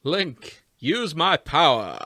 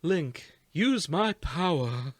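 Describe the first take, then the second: First: Loud, pompous, booming prince; Matt Berry voice. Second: Soft and posh. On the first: Retold or imitated. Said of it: "Do not Matt Berry Prince Sidon". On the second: Acted. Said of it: "I said soft and posh".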